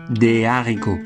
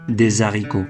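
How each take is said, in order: First: No z sound links the two words. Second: A z sound links the two words. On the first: This is the officially prescribed form. "L'Académie française demande de prononcer" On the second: This is the common everyday form. "beaucoup de Français disent"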